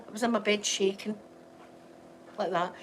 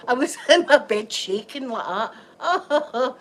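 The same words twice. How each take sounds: First: Said in the usual way. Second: Slow, laughing through the words; giggling as she tells it, slowly; laughing at herself, drawn out. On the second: Real, not acted. Laughing about shaking in bed.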